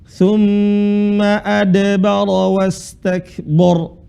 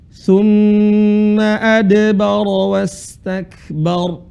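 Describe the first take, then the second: First: The final syllable has a heavy, rounded vowel. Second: The final syllable has a light, open vowel. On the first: The speaker calls it wrong. "Bor jadinya" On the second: The speaker calls it right. "Yang benar adalah ba. Bar"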